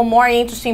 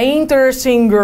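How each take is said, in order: First: Said in the usual way. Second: Mock wrong form, "interesting" ending in "-inger"; tacked-on R ending. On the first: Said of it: "botar um more na frente deles". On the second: Shown as a demonstration. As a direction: stretch a clumsy extra R after "interesting". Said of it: "com R no final".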